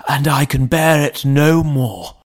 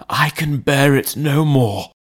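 First: Lightly voiced butler, a touch higher and strained; a worn-out servant at the end of his tether; desperate butler. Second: Lightly voiced butler, repeating it a touch higher; repeating the plea. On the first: Butler pleading with the lawyer, strained voice. Poole's repeated plea. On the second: Butler repeating his plea to the lawyer, strained voice. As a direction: say it again, worn down and stuck. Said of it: "he repeated". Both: A narrator's reading.

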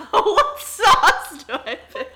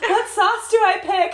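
First: High, loud, slow, laughing through it; laughing mock echo. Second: High, loud, slow silly voice; mock helpless wife. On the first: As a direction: echo the silly question while cracking up. Friend repeats joke, laughing. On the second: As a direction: squeak it out like a clueless bride. Mocking wife's helpless question.

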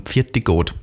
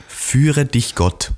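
First: Austrian "Pfirti Gott", run together; "Pfirti Gott" in homely Austrian dialect; dialect blessing. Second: "Führe dich Gott" very slow, word by word; slow, fully pronounced "Führe dich Gott"; High German. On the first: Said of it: "das kommt nämlich von". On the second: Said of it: "das heißt auf Hochdeutsch". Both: Shown as a demonstration.

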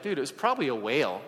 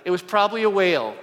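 First: Lightly voiced little kid, offhand. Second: Louder, emphatic restatement; firm insistence. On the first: To the congregation, a hint of a kid saying dude. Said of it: "I still think like a little kid". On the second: Shown as a demonstration. Preacher insisting to the congregation, loud and firm. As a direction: punch it out as settled fact. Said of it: "Let's just say that".

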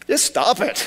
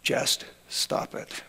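First: Laughing through the words; amused, higher, breaking into laughter. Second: Slow, flat near-whisper; dry and hushed, no feeling; deadpan. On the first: Real, not acted. Pastor repeats it laughing. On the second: Retold or imitated. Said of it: "He was a deadpan guy".

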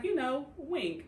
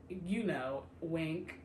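First: "You know, wink." slowed down and spelled out heavily; a maester insisting slowly on "wink"; pointed hint. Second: Said in the usual way. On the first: Retold or imitated. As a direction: lean on "wink" like an obvious nudge. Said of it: "He was like". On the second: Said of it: "He was like, "You know, wink".

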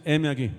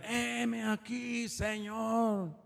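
First: Said in the usual way. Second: Soft, high, long-drawn-out call; longed-for response. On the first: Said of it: "¿Cuántos dicen". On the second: Shown as a demonstration. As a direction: stretch each word out high and soft, like a distant answer to God. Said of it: "Yo hubiera querido que dijeran". (respuesta alargada, aguda y suave)

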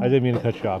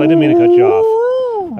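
First: Said in the usual way. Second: High, loud apology through laughter; laughing apology. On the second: Real, not acted. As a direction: squeak it out while still laughing.

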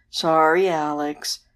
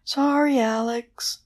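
First: Drawn-out moaning apology; ghostly moan. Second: High wailing apology; high keening banshee, not moaned. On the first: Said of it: "moaned the ghost". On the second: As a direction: wail it like a banshee. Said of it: "wailed the banshee". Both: A narrator's reading.

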